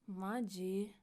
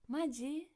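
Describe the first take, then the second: First: It is said in an annoyed, exasperated tone. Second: It is said in an excited, surprised tone. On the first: Disbelief that something bad really happened. "angry, annoyed expressions" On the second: Really? as happy surprise. "we used maji in an excited way"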